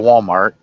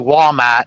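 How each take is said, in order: First: It is said in a neutral US accent. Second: It is said in a Northeastern US accent. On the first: "instead of Walmart" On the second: "if I'm in the Northeast, I'll say Walmart"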